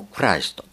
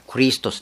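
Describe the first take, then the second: First: クライスト said kuraisuto with rai; 誤った発音でクライスト; mistaken pronunciation. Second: クリストス said kurisutosu with stress on リ; 正しい発音でクリストス; corrected pronunciation. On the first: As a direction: say クライスト with the ライ vowel. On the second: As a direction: fix it to クリストス with ri. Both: Shown as a demonstration. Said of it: "いや、クリストスです".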